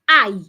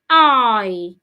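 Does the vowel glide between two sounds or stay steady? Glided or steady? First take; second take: steady; glided. First: The vowel stays on one steady sound. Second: The vowel glides slowly from one sound to another. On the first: The speaker calls it wrong. "not I" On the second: The speaker calls it right. "you go slowly from A to A"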